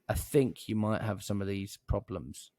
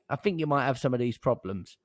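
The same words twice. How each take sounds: First: It is said in a careful, polished way. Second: It is said in a casual, colloquial way. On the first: It suits talking to a senior decision maker. "If I'm speaking to a really important decision maker" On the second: It suits talking to tradespeople. "if I was calling plumbers and leckies and stuff like that. All right, mate"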